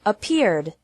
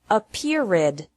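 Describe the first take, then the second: First: "Appeared" said correctly in two syllables ending on d; the right way, just a d at the end. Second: "appeared" said wrongly as ap-peer-ed with a separate ed syllable; teacher demonstrates the error; wrong three-syllable ed. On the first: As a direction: correct version after the mistake. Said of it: "like D with no extra syllable". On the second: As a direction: show the mistake with an added syllable. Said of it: "Don't pronounce it appeared with three". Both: Shown as a demonstration.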